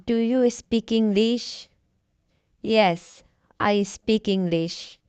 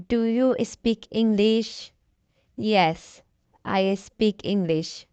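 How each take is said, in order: Both takes have the same delivery.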